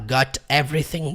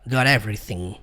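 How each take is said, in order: First: The t is kept apart from the next word. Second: The t links smoothly into the next word. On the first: "ao invés de você falar" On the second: "comumente você vai juntar"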